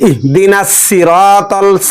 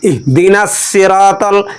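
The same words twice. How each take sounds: The two takes are said the same way.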